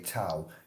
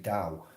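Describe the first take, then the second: First: The word is pronounced the way it looks spelled. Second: The word is pronounced differently from its spelling. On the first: The speaker calls it wrong. "you'd look at it as if it would say Tao" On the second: The speaker calls it right. "It's actually Tao"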